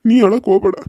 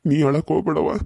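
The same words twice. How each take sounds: First: ನೀ pushed out loud, a firm insistent don't cry; firmer louder plea. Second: Said in the usual way. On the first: Acted. Father firmly tells his crying daughter to stop crying, louder. Father repeats, more forcefully.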